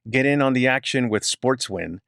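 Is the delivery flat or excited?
flat. It is read flatly, without much emotion.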